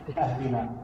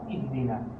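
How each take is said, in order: First: The word begins with an open a vowel. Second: The word begins with a pinched i vowel. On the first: The speaker calls it wrong. "they're going to say اَهْدِنَا" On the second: The speaker calls it right. "You have to pinch that sound"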